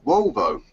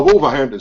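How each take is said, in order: First: "Wolvo" clipped to two syllables, WOL-vo; a lazy local short form, "Wolvo"; mispronounced city name. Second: "Wolverhampton" said in full, WOL-ver-hamp-ton; corrected city name. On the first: Host gets the city name wrong: "Wolvo" cut short. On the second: Host corrects himself to the full "Wolverhampton". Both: Shown as a demonstration.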